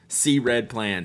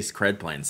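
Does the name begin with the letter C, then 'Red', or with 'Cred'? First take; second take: C, Red; Cred. First: The first part is said as letter C, then 'Red'. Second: The first part is said as one syllable, 'Cred'. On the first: "I get to say it right now. See, I did it" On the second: "I'm still gonna say Cred Plans sometimes"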